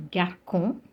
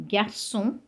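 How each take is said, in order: First: Garcon with a hard K, "gar-kon"; C misread as K. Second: Garçon with an S sound, "gar-son"; cedilla as S. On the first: Teacher showing the mistake to avoid, garcon with K. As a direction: garcon mispronounced with K in the middle. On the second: Teacher contrasting for learners, garçon said with S. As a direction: say garçon in French with a soft C. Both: Shown as a demonstration. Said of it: "and not garcon".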